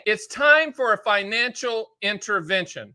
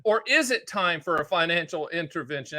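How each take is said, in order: First: TIME stressed, falling end; slow, emphatic statement that falls at the close; firm announcement. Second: IS stressed, rising end; quicker question, IS emphasized, lifting at the close. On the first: Topic announced, then turned to question. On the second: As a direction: turn it into a doubt by leaning on IS. Same words turned into a question. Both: Real, not acted.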